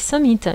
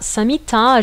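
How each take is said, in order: First: The word ends with the final vowel dropped. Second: The word ends with a long final vowel. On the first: "je dis Samita" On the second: "je ne dis pas Samita"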